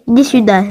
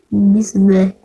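First: Said in the usual way. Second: Whisper. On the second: Acted. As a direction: whisper the call. Whispered repeat of call.

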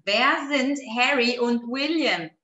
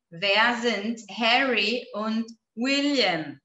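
First: Said in the usual way. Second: Slow, spaced-out question; measured pace, word by word; slow model reading. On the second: Shown as a demonstration. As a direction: read it out slowly for learners. Repeating slowly for the class.

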